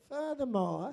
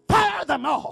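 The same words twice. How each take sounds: First: The word is said softly, without force. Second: The word is slammed down loudly and forcefully. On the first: The speaker calls it wrong. "you don't say furthermore" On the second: The speaker calls it right. "You throw it down like you throw dominoes"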